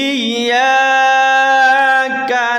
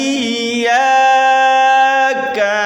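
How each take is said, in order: Both takes have the same delivery.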